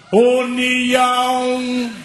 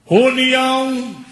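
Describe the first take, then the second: First: Very long, higher held call; louder driver's shout. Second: Long drawn-out, higher call; bus driver's shout. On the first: Driver repeats the stop louder, extra-long shout. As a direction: bellow the stop, holding the vowels very long. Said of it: "Aí ele grita mais alto". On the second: Bus driver to passengers at the front, drawn-out shout. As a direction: call out the stop, stretching the word. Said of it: "o motorista grita lá na frente". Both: Retold or imitated.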